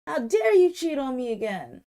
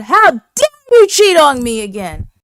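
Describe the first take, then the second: First: Retold outrage, higher and louder; acted-out indignation, held short of a shout; indignant accusation. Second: High, very loud mock outrage; full-volume acted-out fury; outraged shout. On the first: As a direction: imitate an indignant, cheated-on woman. Retold angry accusation of cheating. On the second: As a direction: yell the accusation, imitating a furious woman. Same accusation re-enacted at full volume.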